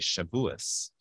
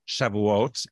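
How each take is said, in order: First: The word ends with an s sound. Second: The word ends with a t sound. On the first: "we always say Shavuos" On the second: "I know it ends with a T"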